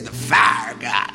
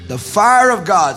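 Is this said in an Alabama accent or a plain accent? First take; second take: Alabama; plain. First: It is said in an Alabama accent. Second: It is said in the speaker's plain accent.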